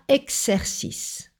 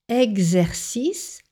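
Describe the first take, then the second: First: The x is voiceless, sounding like ks. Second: The x is voiced, sounding like gz. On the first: The speaker calls it wrong. "et pas exercice" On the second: The speaker calls it right. "Exercice et pas exercice"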